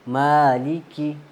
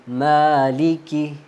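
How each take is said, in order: No difference in how they are said.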